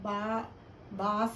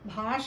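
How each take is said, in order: First: The first consonant is said without aspiration. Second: The first consonant is said with aspiration. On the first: The speaker calls it wrong. "కాదు" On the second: The speaker calls it right. "భాష మాట్లాడదాం"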